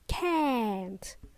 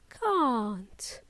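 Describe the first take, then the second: First: It has a short, flat 'a' vowel. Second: It has a long, open 'ah' vowel. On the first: "In American English, it is can't" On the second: "In British English, this contraction of cannot is pronounced as can't, with a long ah"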